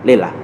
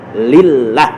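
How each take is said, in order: First: The l sound is short and single. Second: The l sound is clearly doubled and held. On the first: The speaker calls it wrong. "jangan lillah" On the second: The speaker calls it right. "harus jelas"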